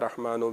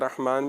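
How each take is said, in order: First: The word ends with an added u vowel. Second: The word ends on the final n consonant. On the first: The word is joined to what follows. "मिलाकर पढ़ें तो फिर पेश के साथ" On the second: The reciter pauses after the word. "वक्फ करेंगे तो रहमान पढ़ लें"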